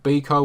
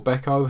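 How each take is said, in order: First: Beko said as BEE-ko; Beko with first syllable like "bee"; BEE-ko pronunciation. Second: Beko said as BECK-o; Beko with first syllable like "beck"; BECK-o pronunciation. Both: Shown as a demonstration. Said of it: "however you say it".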